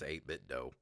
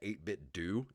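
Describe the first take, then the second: First: The last word has an 'oh' vowel. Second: The last word has an 'oo' vowel. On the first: The speaker calls it right. "that's how I'm going to pronounce it" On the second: The speaker calls it wrong. "That just doesn't sound right to me"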